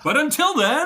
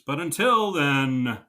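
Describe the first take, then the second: First: It is said with lively enthusiasm. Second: It is said flatly, without enthusiasm.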